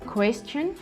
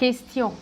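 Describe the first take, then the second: First: It is pronounced the English way. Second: It is pronounced the French way. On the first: "en anglais" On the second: "en français"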